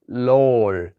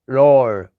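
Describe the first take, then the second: First: The tongue touches the teeth, like English L. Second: The tongue floats mid-mouth, sounding like R. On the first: "It sounds like an L, and that's wrong" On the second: "It kind of sounds like an R"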